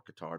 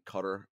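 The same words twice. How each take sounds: First: "Qatar" with the stress on the second syllable; second pronunciation variant. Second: "Qatar" with the stress on the first syllable; first pronunciation variant. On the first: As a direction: say "Qatar" as "kuh-TAR". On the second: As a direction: say "Qatar" like "cutter", stress up front. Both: Shown as a demonstration. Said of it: "depending on how you choose to pronounce it".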